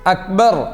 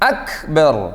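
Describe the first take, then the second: First: The k is closed without an audible breath. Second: The k is released with an audible breath. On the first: The speaker calls it wrong. "ശക്തി എന്ന് പറഞ്ഞതുപോലെ അക്ബർ പറഞ്ഞാൽ പോരാ" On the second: The speaker calls it right. "അക് അക് കേൾക്കില്ലേ? അക് അത് വേണം"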